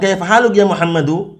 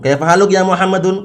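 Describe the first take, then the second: First: The name ends with a plain '-u' sound. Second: The name ends with an '-un' sound. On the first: The speaker calls it right. "kalau mau dilanjutkan kaifa haluk ya Muhammadu, seperti itu" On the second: The speaker calls it wrong.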